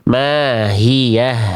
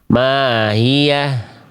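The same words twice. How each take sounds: First: The h sounds are clear with flowing breath. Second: The h sounds are faint and unclear. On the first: The speaker calls it right. "Itu jelas nafas suaranya" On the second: The speaker calls it wrong. "Ini nggak jelas"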